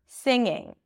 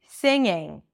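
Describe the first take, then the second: The two takes are said the same way.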